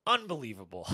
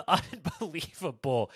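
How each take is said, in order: First: Said in the usual way. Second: Slow, laughing through the word. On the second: Real, not acted. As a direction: laugh it out in disbelief. Repeats word, second laughing.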